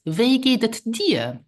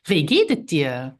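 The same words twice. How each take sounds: First: Slow "Wie geht es dir?" with a higher voice; slow model phrase. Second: Said in the usual way. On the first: Shown as a demonstration. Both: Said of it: "more personal is".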